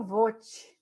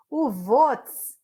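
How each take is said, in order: First: "vote" drawn out, ending in an open vowel; slow "vote" with no final S; vote without S. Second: "votes" said loud, ending in a hissed ts; crisp S at the end of "votes"; votes with final S. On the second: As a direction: close "votes" on a clear S. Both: Shown as a demonstration. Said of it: "eu falava vote".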